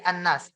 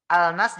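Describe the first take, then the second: First: "an-nas" with a doubled, held N; lam lebur berdengung. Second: "Al-nas" with the L sounded; a clear L in "Al-nas"; lam dibaca jelas. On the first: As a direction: hold the N in "an-nas". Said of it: "jadi an-nas". ("an-nas" dengan nun ditahan) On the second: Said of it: "Al-nas jadi an-nas". ("Al-nas" dengan lam jelas) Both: Shown as a demonstration.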